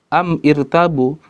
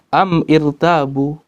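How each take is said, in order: The two takes are said the same way.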